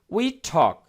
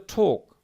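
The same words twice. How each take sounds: First: "talk" with an open American vowel; American pronunciation. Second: "ঠোক" with a rounded British "o"; British pronunciation. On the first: Teacher showing learners the American sound, open-vowelled "talk". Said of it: "এটা আমেরিকার উচ্চারণ". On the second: Teacher contrasting British speech for learners, rounded-vowel "ঠোক". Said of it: "ব্রিটিশরা বলে". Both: Shown as a demonstration.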